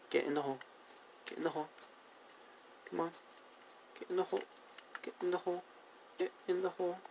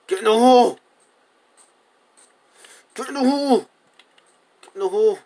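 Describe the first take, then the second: First: Very soft, repeated urging; hushed coaxing. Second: High, loud yelled command; exasperated shout. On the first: Player urging two cows into a hole, hushed coaxing. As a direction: coax them in, barely audible. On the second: Player ordering cows into the hole, exasperated high shout. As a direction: yell it at stubborn animals. Losing patience with the animals. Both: Real, not acted.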